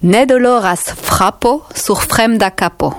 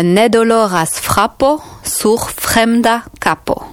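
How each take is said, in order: First: "Ne doloras frapo sur fremda capo" read out in clear Esperanto; Esperanto phrase. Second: "Ne doloras frapo sur fremda capo" slowed, word by word; slow repeat. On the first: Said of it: "Est-ce que tu comprends?". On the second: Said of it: "Donc, ne doloras". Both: Shown as a demonstration.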